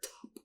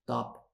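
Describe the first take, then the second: First: The first consonant has a puff of air. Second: The first consonant has no puff of air. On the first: The speaker calls it right. "You can hear the air" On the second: The speaker calls it wrong. "like a D"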